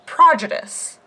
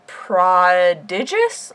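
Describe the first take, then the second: First: "prodigious" stressed on the first syllable; questioned pronunciation. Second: "Prodigious" drawn out, stressed on DIDGE; unsure pronunciation. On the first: Player offers the other option, "prodigious" with first-syllable stress. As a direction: say "prodigious" as PRAH-didge-ous, like prodigy. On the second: Player tests how the word goes, "Prodigious" with second-syllable stress. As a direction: say "Prodigious" as pro-DIDGE-ous, slowly. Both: Shown as a demonstration. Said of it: "Prodigious or prodigious?".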